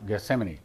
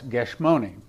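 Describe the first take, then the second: First: The name is pronounced with English sounds. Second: The name is pronounced with Hebrew sounds. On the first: "the way we pronounce it in English" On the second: "but in Hebrew it's Gethsemane"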